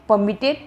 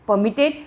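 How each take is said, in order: The two takes are said the same way.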